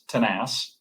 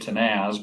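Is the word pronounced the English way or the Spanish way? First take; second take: Spanish; English. First: The word is said with Spanish pronunciation. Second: The word is said with English-style pronunciation. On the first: The speaker calls it right. "probably the correct uh, Spanish pronunciation" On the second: The speaker calls it wrong. "we always say"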